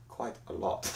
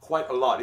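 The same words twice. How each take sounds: First: Low, very soft mock-ominous reply; quietly imitating a grave answer; hushed retold answer. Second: Said in the usual way. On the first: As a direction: drop right down, nearly under the breath. Same answer repeated, hushed.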